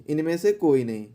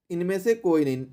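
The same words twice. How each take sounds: The two takes are said the same way.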